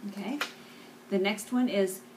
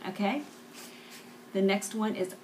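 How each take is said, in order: Both takes have the same delivery.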